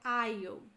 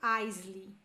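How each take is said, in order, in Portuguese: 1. A palavra é pronunciada sem som de s. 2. A palavra é pronunciada com um som de s audível. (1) "Eu falo aisle. Sem o som do S" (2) "eu não falo Isley"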